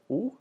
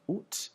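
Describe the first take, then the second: First: The word ends in a vowel, with no T. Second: The word ends with a clear T sound. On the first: This is the everyday form most people use. "most people nowadays would say oo" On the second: This is a formal, older-generation form. "the pronunciation oot with the final T"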